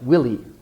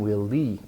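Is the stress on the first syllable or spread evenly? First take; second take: first syllable; evenly. First: The first syllable is stressed, the second light. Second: Both syllables get equal stress. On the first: It is the man's name. The speaker calls it right. "should have a clear stress on the first syllable, and the second syllable is light" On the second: It sounds like the words 'will lead'. The speaker calls it wrong. "which might sound will lead"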